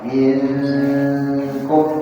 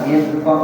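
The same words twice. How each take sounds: First: The n is nasalized and held before k. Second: The n is pronounced clearly without holding. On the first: The speaker calls it right. "menahan ikfa" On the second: The speaker calls it wrong. "dibaca izhar"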